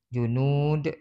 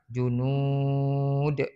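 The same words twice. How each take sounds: First: The last vowel is held for two beats. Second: The last vowel is held for four beats. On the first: "dua harakat"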